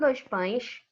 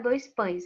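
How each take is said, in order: First: The s sounds are a hushing sh. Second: The s sounds are a plain hissing s. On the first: This is how people in the neighboring state say it. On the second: This is how it is said locally.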